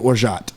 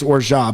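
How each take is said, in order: First: The final consonant is pronounced. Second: The final consonant is dropped. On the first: Another word follows it. "if there's another word following it, it would be orgeat" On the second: No word follows it. "you drop it off. So it's orgeat"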